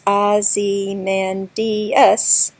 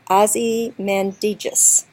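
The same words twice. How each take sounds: First: The name is stretched out to five syllables. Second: The name is squeezed into four syllables. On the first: It gives the sonnet line an extra syllable. "if I stretch it out into all five syllables" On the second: It fits the ten-syllable line of the sonnet. "I'm going to pronounce that word in four syllables"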